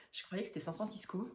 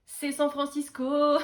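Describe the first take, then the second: First: « San Francisco » murmuré, bas et doux; aparté doux. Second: « San » martelé, fort et lent; appuyé. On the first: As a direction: dire « San Francisco » tout bas pour soi. (« San Francisco » en aparté, tout bas) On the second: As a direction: affirmer « San Francisco » fort et lentement. (« San Francisco » dit fort, lent, appuyé) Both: Real, not acted.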